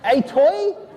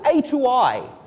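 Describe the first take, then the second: First: The name runs together like the word 'a toy'. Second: The name is said as three separate parts. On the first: "How would you pronounce this?" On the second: "I call this A to I. ASCII to integer"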